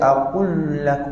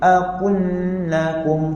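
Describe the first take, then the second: First: The lam sounds heavy, with rounded lips. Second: The lam sounds light, with an open mouth. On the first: The speaker calls it wrong. "jangan macam akul lakum, nanti lam jadi berat" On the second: The speaker calls it right. "kita buka mulut kita sikit"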